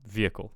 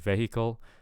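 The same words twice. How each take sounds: First: The h is silent, first syllable stressed. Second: The h in the middle is pronounced. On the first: The speaker calls it right. "So silent H and stress on the first syllable" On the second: The speaker calls it wrong. "I'm hearing vehicle"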